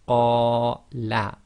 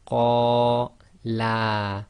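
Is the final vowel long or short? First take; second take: short; long. First: The final vowel is short. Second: The final vowel is long. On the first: One man said it. "the qa is two long and the la sound is one long" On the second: Two men said it. "the only difference was the length"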